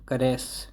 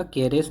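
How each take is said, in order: First: करेस with short weak first vowel; correct pronunciation. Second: कैरेस opening with full "kay"; wrong pronunciation. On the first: Teacher correcting learners' reading of caress, right करेस. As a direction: say करेस as "kuh-RESS". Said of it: "ये करेस है". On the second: Teacher rejecting a misreading of caress, wrong कैरेस. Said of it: "कैरेस नहीं है ये". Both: Shown as a demonstration.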